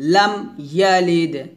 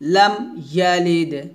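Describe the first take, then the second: First: The first word ends cleanly on the m sound. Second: The first word ends cleanly on the m sound.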